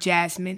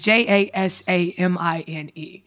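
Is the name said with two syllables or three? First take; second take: two; three. First: The name is said with two syllables. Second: The name is said with three syllables. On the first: The speaker calls it wrong. "It's not Jasmine" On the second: The speaker calls it right. "Just one extra letter"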